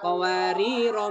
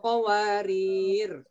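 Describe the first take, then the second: First: The final vowel is cut short. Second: The word ends without a final vowel. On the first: The reader starts from the next verse. "rohnya dibaca pendek" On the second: The reader stops on the second occurrence. "rohnya dibaca sukun"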